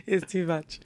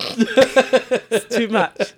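First: Said in the usual way. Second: Dramatic whine. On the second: Acted. Mock dramatic complaint.

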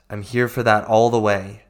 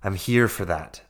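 First: Louder, punching "all the way"; firm, loud "I'm here for that all the way"; emphatic promise. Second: Said in the usual way. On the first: Real, not acted. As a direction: lean hard into "all the way". Affirming commitment to listeners.

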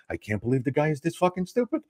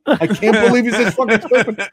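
First: Hushed, incredulous aside; imitated whisper. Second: High, squeaky-tight disbelief; incredulous mock whisper blown up. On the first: Bronzy behind the comic at the bar, whispering in his ear. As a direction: whisper it in disbelief, much softer. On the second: Bronzy marvelling at the duped heckler, high incredulous exclamation. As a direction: repeat it pitched way up, no longer hushed. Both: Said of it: "whispering in my ear".

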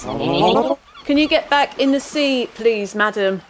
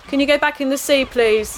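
First: Slow, firm, deliberate request; firm police request. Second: Said in the usual way. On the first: Acted. Constable ordering the sea creature back, slow and firm. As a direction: spell it out slowly to the creature. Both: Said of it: "Sorry, I'll have to stop you there".

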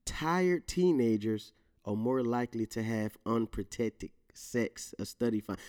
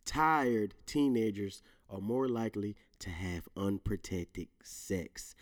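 First: Slow reading. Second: A careful, stumbling reread; slower careful reading. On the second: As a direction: read it slowly and deliberately, fading out on sex. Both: Shown as a demonstration. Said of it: "Let me say that again".

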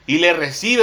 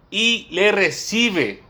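First: Said in the usual way. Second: "y le recibe" drawn out very slowly, pitch raised; slow, weighty stress on "le recibe"; emphatic repetition. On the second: Shown as a demonstration. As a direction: spell out "y le recibe" word by word for the congregation. Repeated for emphasis after "fíjense.

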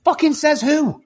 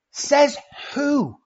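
First: Put-on much higher, scoffing kid's voice, hitting fucking; defiant kid retort. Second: Higher, drawn-out mocking says who; mock kid retort. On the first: A kid scoffs at being told he can't play football, high and mocking. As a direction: mimic a cocky kid throwing it back. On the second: Repeating the kid's comeback to the parent, high and mocking. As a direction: echo the kid's challenge, leaning on says. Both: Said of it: "one of our biggest sayings today".

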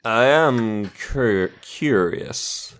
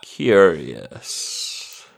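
First: A hint of a sleazy villain; changed villain voice. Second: Low, slow drawn-out villain; lightly voiced scheming archmage. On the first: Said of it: "Well, I've changed my voice again". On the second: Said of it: "you recognise the voice as the Archminster Elgort".

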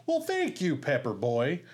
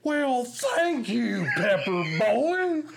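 First: The line as written, lightly lifted; plain line reading. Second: Much higher, much louder, very slow booming voice; transformed Farley bellow. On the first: Retelling the sketch, the line as written for Farley. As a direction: say it straight, as scripted. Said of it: "Farley's just supposed to say". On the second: Retelling how Farley transformed the line, a booming slow bellow. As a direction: blow the line up huge and drawn out. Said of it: "he just transforms". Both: Retold or imitated.

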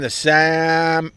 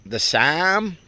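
First: Said in the usual way. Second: Midwestern accent. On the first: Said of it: "what accent is that". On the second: Shown as a demonstration. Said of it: "what accent is that, Ope?".

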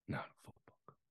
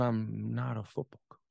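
First: Very soft, solemn whisper. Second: Low, grave but voiced retelling; a father's quiet, firm admission; kindly father. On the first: Retold or imitated. Father finishing his confession to son, whispered. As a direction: let it fade to pure breath. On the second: Father explaining himself to his son, kindly and low. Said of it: "he kindly regarded me and said".

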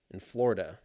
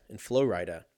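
First: "Florida" said FLOR-uh-duh; Florida as usual. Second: "Florida" said Flo-RYE-duh; mock Florida. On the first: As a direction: say "Florida" as FLOR-uh-duh, first syllable stressed. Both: Shown as a demonstration.

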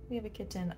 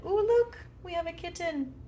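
First: Said in the usual way. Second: High, excited squeal at spotting a kitten; light up as the kitten appears; ooh, look, sudden excited cooing at a kitten; delighted surprise. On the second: Real, not acted. Kitten walks into her bedroom.

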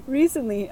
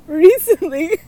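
First: Said in the usual way. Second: High and loud, fighting back giggles; bursting with laughter on the first word; laughing. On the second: Real, not acted. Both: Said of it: "I can't, like, read this without laughing".

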